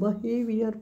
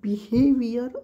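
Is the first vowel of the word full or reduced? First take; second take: reduced; full. First: The first vowel is a short reduced 'uh'. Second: The first vowel is a full 'ee' sound. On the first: "फास्टमध्ये म्हणतात त्यावेळी बहेवियर असं येऊ शकतं" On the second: "बिहेवियर असं पण म्हटलं जातं"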